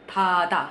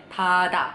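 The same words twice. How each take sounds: Both takes have the same delivery.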